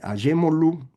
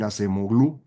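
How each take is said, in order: First: The name is pronounced in the Turkish way. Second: The name is pronounced letter by letter as spelled. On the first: This is how the name is really pronounced. "así se pronuncia" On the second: This is how a reader would take it from the spelling. "usted lo va a leer Acemoglu"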